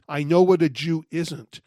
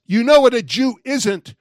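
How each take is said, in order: First: Said in the usual way. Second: Loud, higher challenge, punch "know"; shouting after him. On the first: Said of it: "repeats his shouted line reflectively". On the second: Retold or imitated. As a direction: shout it to make him stop walking. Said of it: "I finally shouted after him".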